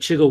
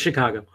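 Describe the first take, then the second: First: The name is said with two syllables. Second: The name is said with three syllables. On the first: The speaker calls it wrong. "Like people call it Chigo Wiz. I'm like, no" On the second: The speaker calls it right. "No longer. It's Chicago"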